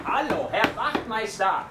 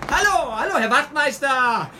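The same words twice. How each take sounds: First: Slow, raised call towards the closed door. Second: Much higher, loud, slow yelling call; desperate shout. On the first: Young man calls for the sergeant at the station, raised polite call. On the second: Young man desperately shouts for the sergeant, loud high yell. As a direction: hammer the words at the locked door. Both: Acted.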